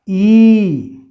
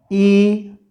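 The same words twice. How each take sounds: First: Long drawn-out ई, louder. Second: Short ई, said brief. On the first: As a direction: stretch the ई out. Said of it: "और दूसरा". (लंबा खिंचा हुआ ई) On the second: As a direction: say ई short and quick. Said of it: "उसी तरह". (छोटा ई, जल्दी बोलें) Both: Shown as a demonstration.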